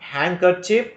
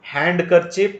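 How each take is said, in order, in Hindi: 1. D की ध्वनि मौन है। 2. D की ध्वनि उच्चारित होती है। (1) "D is not pronounced" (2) "Don't say"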